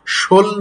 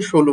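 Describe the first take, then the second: First: "ষোল" as shol, ending on l; final vowel dropped. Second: "ষোলো" as sholo, ending on o; final o sounded. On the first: Teacher contrasts for students, "ষোল" cut to shol. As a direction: say "ষোল" as one closed syllable. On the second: Teacher gives the real form, "ষোলো" ending in o. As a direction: say "ষোলো" in two syllables, rounded final o. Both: Shown as a demonstration. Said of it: "ষোল না হয়ে ষোলো".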